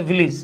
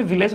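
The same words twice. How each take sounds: First: ভিলেজ said as VI-lij; corrected pronunciation. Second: ভিলেজ said the everyday way, VI-lej; common pronunciation. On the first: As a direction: say ভিলেজ with a short "i" in the second syllable. (শুদ্ধ উচ্চারণে "ভিলেজ", শোনায় ভিলিজ) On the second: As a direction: say ভিলেজ with an "e" in the second syllable. (প্রচলিত উচ্চারণে "ভিলেজ", দ্বিতীয় অংশে এ-ধ্বনি) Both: Shown as a demonstration. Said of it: "উচ্চারণ হচ্ছে".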